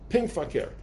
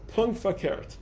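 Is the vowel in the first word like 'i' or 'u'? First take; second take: i; u. First: The first word has an 'i' vowel. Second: The first word has a 'u' vowel. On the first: "if you're a chassid, you say pink fakert. That's like the deeper inflection in Yiddish" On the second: "You know how to say Adarab in Yiddish?"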